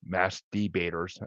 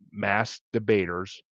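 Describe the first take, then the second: First: Masked, then De-baters with a clear "dee"; over-careful enunciation. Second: Masked Debaters said slowly, words kept apart; careful slow title. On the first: Podcaster clarifying an awkward show title, over-carefully enunciated. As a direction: separate Masked from Debaters, slowly and distinctly. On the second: Podcaster naming a favorite show, said slowly and carefully. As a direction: take care over Masked Debaters. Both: Real, not acted. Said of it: "sounds bad if you say it fast".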